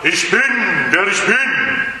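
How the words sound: It is said in a deep, growling, menacing way. The listener is made to feel very small. "Und er sagt vielleicht ganz grollend"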